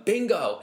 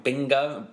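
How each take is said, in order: First: A hint of an excited commentator calling Bingo!; surf commentator catchphrase. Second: Said in the usual way. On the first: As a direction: lightly mimic the commentator crying Bingo!. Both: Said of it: "he's coined bingo".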